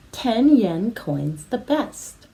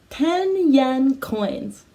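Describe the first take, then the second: First: Said in the usual way. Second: Ten yen coins stretched out slowly; slow, deliberate ten yen coins; slow model phrase. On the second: Shown as a demonstration. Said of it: "Can you say ten yen coins?".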